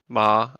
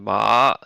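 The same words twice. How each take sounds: First: The pitch stays flat through the syllable. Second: The pitch rises through the syllable. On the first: "the flat tone" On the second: "the rising tone"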